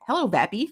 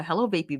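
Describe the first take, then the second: First: "Vappy" with a short flat a, as in cat; corrected name pronunciation. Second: Said in the usual way. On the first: Real, not acted. Host greeting a viewer by the corrected name, "Vappy" with short a. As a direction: say "Vappy" to rhyme with happy. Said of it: "Pronounce Vapey. Vappy". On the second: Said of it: "Pronounce Vapey".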